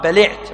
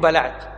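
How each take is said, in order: First: The vowel after the L is i. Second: The vowel after the L is a. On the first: The speaker calls it right. "الصواب بلعت" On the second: The speaker calls it wrong. "مو بلعت"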